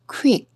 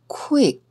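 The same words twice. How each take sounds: First: The word is said quickly and briskly. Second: The word is said slowly and carefully.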